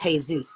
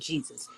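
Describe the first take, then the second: First: The name begins with a soft H sound. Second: The name begins with a hard J sound. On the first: The speaker calls it right. "Jesus is pronounced Jesus" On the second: The speaker calls it wrong. "not Jesus"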